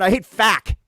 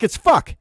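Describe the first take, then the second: First: "fack" said as written, flat a; mock the spelling "fack"; wrong spelling said. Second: "fuck" said properly, not "fack"; correct word. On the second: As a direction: set it right: "fuck". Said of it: "It's not F A K". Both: Shown as a demonstration.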